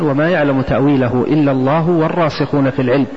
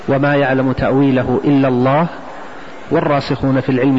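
First: It runs on without a pause after Allah. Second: There is a pause after the word Allah. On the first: Those firm in knowledge also know its interpretation. "ويجوز أيضا الوصل" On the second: Only God knows its interpretation. "أن يكون عند اسم الجلالة"

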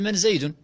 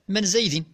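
First: The name ends with the vowel u (zaydun). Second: The name ends with the vowel i (zaydin). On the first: This is the plain form without echoing the question. "كان الأصل أن أقول: من زيد؟ بالرفع" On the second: It echoes the name as the questioner said it. "فأقول لك على سبيل الحكاية: من زيد؟ بالجر"

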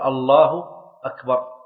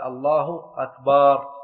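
First: No vowel is drawn out. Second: The vowel after the b is drawn out. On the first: It states that God is greatest. The speaker calls it right. "بأن يقول الله أكبر" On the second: It turns the word into a plural meaning drums. The speaker calls it wrong. "لو مد الباء في أكبر"

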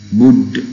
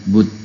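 First: The final d is released with a bouncing echo. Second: The final d stops flat without a bounce. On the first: The speaker calls it right. "dalnya jadi kol-kolah" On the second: The speaker calls it wrong. "bukan bud"

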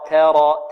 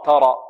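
First: The vowel after t is a medium open a. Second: The t is heavy with a deep a. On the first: The speaker calls it right. "الصحيح" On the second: The speaker calls it wrong. "ولا نقول تاء ترى تاء نفخم"

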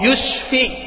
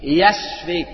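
First: The first vowel is a 'u' sound. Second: The first vowel is an 'a' sound. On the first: May you die soon. The speaker calls it wrong. "yaknya itu di bomba" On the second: May God grant you healing. The speaker calls it right. "ya-nya di fathah"

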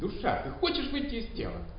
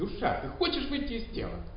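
First: It is said in an irritated tone. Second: It is said in an irritated tone.

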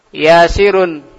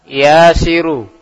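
First: The word ends with a final n sound. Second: The word ends without a final n sound. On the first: The name is in its basic form, not being called. "Asalnya yasirun pakai tanwin" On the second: The name is being called out to directly. "Jadi dia tidak pakai tanwin"

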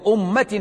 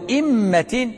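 First: The first vowel is a rounded u sound. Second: The first vowel is a front i sound. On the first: It means religion and obedience. "بضم الهمزة" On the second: It means a blessing bestowed on someone. "بالكسر"

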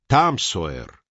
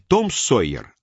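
First: The first vowel is an open a sound. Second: The first vowel is a rounded o sound. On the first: This is how Americans say it. "а Там Сойер" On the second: This is the usual Russian form, not the American one. "И не Том Сойер"

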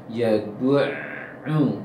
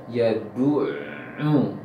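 The two takes are said the same way.

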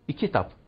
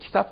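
First: An extra vowel is added before the k sound. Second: The word starts directly with the k sound. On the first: This is how village children said it. "Onların başına bir İ getirmek suretiyle söyleriz" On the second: This is the standard form. "kitap diyemezdik"

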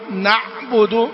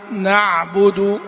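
First: The ayn is abruptly cut off with voice stopped. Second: The ayn is moderate, with partial voice flow. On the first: The speaker calls it wrong. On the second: The speaker calls it right.

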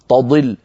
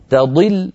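First: The first t sounds heavy and emphatic. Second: The first t sounds light and thin. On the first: The speaker calls it wrong. "هنا صارت التاء وكأنها طاء تقريبا" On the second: The speaker calls it right. "لابد من ترقيق التاء وتفخيم الضاد"

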